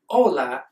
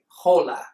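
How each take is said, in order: First: The word starts with a vowel, no H sound. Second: The word starts with an audible H sound. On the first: The speaker calls it right. "it's said hola without pronouncing the H" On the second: The speaker calls it wrong. "We don't say hola"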